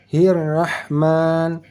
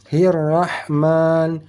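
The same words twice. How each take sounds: The two takes are said the same way.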